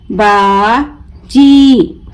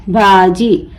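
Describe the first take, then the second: First: बाजी very slow, "baa", pause, long "jee"; broken into syllables. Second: Said in the usual way. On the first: Shown as a demonstration. Teacher breaking the word for learners, बाजी stretched as baa... jee. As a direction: draw out बाजी as two separate syllables with a j. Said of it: "तोड़ तोड़ कर पढ़ूंगी". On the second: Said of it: "मिलाकर पढ़ें".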